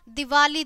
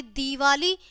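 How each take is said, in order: First: दिवाली with short first "di"; wrong short i. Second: दिवाली with long first "dee"; correct long ī. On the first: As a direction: start दिवाली on a quick "di". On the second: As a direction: stretch the opening vowel of दिवाली. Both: Shown as a demonstration. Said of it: "ई की मात्रा का फर्क".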